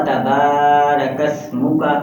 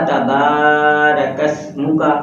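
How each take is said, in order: No difference in how they are said.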